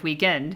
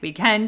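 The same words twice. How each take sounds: First: The pitch stays level at the end of the word. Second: The pitch rises at the end of the word. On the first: It is the usual home way of saying it. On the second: It is a habit picked up from locals abroad.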